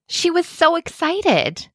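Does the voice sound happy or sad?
happy. It is read in a happy, lively voice. The speaker calls it right. "I'm going to use a happy voice to match the vocabulary"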